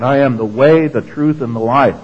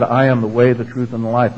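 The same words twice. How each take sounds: First: WAY and TRUTH set apart, firmly stressed; emphatic. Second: Said in the usual way. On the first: Retold or imitated. Preacher quoting Jesus to the congregation, emphatic. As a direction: quote it emphatically, landing on "way", "truth", "life". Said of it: "He said, emphatically".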